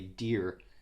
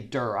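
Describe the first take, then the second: First: The vowel sounds like the one in 'here'. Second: The vowel sounds like the one in 'her'. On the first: Someone else said it this way. "I heard somebody else one time say Deer" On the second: This is the speaker's own way of saying it. "I say Durr"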